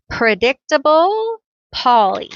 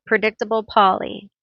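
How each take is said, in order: First: Predictable stressed, higher and louder, falling on Polly; naming flourish. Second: Said in the usual way. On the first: Shown as a demonstration. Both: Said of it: "That's what we'll call him".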